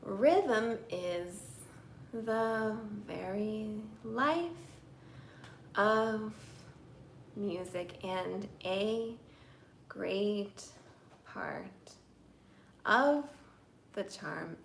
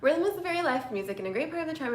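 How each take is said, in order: First: The sentence is spoken very slowly. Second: The sentence is spoken very fast. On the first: The meaning is lost because it drags. "if I say it too slowly" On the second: The meaning is lost because it is rushed. "here's me saying this really fast"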